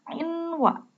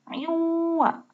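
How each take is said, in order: First: The n sound is pronounced separately before w. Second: The n sound merges into the following w. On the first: The speaker calls it wrong. "bukan inwa" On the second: The speaker calls it right. "dibacanya harus masuk"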